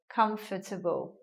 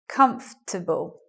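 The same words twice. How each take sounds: First: It is said with four syllables. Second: It is said with three syllables. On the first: "some people will say the word in a four-syllable way like this" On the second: "now we get a three-syllable word"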